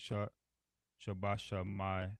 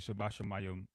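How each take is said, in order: First: The word ends with an added 'ama' sound. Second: The word ends with a short 'im' sound. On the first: The speaker calls it wrong. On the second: The speaker calls it right.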